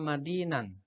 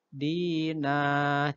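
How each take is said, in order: First: The word ends with an n sound. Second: The word ends with a lengthened vowel, no n. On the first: The reading continues into the next word. "Harusnya kan bacanya nan karena fathatain" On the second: The reader stops at this word. "maka tanwinnya diganti bacanya panjang atau mat"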